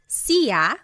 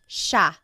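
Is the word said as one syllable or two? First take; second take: two; one. First: The word is said as two separate syllables. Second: The word is said as one blended syllable. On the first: The speaker calls it wrong. "It looks like it should be pronounced" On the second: The speaker calls it right. "it's actually pronounced"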